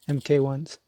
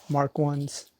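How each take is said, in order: First: MK is spelled out as two letters. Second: MK is read as the word mark. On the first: This is how the speaker says it. "I say M K ones" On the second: Some other people may say it this way. "I don't know how you guys like to pronounce it"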